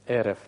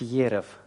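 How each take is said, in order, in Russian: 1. Слово начинается с обычного гласного. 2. Слово начинается со звука й. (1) "а эрев" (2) "айн не нужно произносить как йод. То есть не следует говорить ерев"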